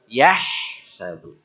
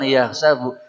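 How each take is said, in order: First: A throaty h sound is heard after ya. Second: No throaty h sound is heard after ya. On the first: The speaker calls it right. "yahsabu harus ada begitu" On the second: The speaker calls it wrong. "bukan ya sabu"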